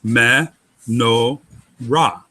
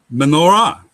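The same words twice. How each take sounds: First: "Me, no, ra" as three separate syllables. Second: Said in the usual way. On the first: Shown as a demonstration. Teacher dividing the lampstand's Hebrew name, syllable by syllable. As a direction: break "Me, no, ra" apart with pauses. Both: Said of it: "Consonant, vowel".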